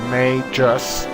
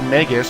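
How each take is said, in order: First: The first syllable sounds like 'may'. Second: The first syllable does not sound like 'may'. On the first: This is the official pronunciation. "it's pronounced Magus, like the month May" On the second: This is the pronunciation from an older game. "I'm so used to that pronunciation from the Chrono Trigger games"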